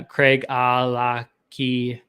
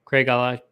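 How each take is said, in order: First: Craig Alaki slowly, syllable by syllable; careful, halting Craig Alaki; sounded-out pronunciation. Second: Craig Alaki quickly in one go; run-together pronunciation. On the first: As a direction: break Craig Alaki into separate drawn-out syllables. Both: Shown as a demonstration. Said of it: "is how you say".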